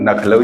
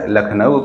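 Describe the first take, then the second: First: The word begins with N; L comes later. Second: The word begins with L; N comes later. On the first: "कुछ लोग बोलते हैं नखलऊ" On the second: "या लखनऊ"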